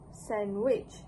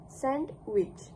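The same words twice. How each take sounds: First: No d sound is heard between n and w. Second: A d sound is heard between n and w. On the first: This is the casual, rapid-speech form. "In this version, the d sound is missing" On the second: This is the careful dictionary form. "includes the consonant d between the n and w sounds, making it sandwich"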